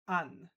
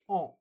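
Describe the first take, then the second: First: The N is sounded as a separate consonant. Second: The vowel is nasal with no separate N. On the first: The speaker calls it wrong. "Some of my students used to read this an" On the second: The speaker calls it right. "the A plus N is actually pronounced in French on"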